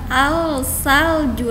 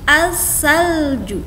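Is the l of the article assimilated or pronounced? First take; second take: pronounced; assimilated. First: The l sound is pronounced before the s. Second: The l merges into a doubled s sound. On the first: The speaker calls it wrong. "Bukan al-salju lagi" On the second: The speaker calls it right. "tapi as, lamnya hilang"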